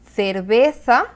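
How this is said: The c and z sound like th. This is how it is said in Spain. "Un español diría"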